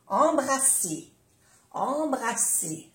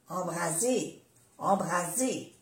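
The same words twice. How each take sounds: First: "embrasser" with an unvoiced s; double S. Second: "embraser" with a voiced z; soft Z. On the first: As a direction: say "embrasser" with a clear hissed s. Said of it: "es importante pronunciar bien las dos S". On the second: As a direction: say "embraser" with a buzzing z. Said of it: "Es muy diferente". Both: Shown as a demonstration.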